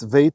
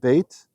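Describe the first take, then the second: First: The word begins with a v sound. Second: The word begins with a b sound. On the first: "Notice it's veit here" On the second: "not bait"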